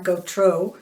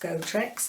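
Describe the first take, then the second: First: The surname is pronounced in a French way. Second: The surname is pronounced in an English way. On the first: "It looks like Gautreaux if it's in French" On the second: "I think it's Gautrex"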